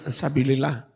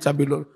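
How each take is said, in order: First: The vowel before -llah is i. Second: The vowel before -llah is u. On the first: This is the form people always use. "enggak peduli rafa nasab ya sabilillah" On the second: This marks the word as a subject. "Fa'il mestinya rafa"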